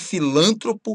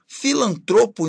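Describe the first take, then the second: First: The stress is on a different syllable. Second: The stress is on the second-to-last syllable. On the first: The speaker calls it wrong. "e não ... O pessoal erra muito essa" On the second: The speaker calls it right. "palavras que são paroxítonas"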